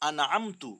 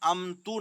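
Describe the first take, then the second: First: The n is pronounced clearly without nasalization. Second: The n is hidden in a nasal sound. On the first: The speaker calls it right. "नाक में नहीं ले जाएँगे" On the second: The speaker calls it wrong. "अमतु नहीं पढ़ेंगे"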